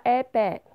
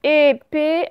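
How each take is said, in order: First: "épée" with open è in both syllables; mispronounced with è. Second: Said in the usual way. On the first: Shown as a demonstration. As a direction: say "épée" wrongly as "èpè". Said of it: "ce n'est pas". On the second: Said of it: "ce n'était que le son et".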